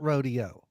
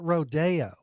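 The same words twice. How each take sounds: First: It is said like the usual ranch event word. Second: It is said like the Hollywood street name. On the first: This is the usual way, which his people avoid. The speaker calls it right. "They don't pronounce it rodeo" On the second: This is how people where he is from say it. The speaker calls it wrong. "They pronounce it rodeo for some stupid reason"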